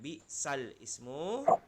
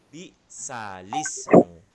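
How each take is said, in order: First: The words are said separately, not linked. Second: The words run together into one linked form. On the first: The speaker calls it wrong. "Jadi bukan bi sal ismu" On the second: The speaker calls it right. "menjadi bi salismu"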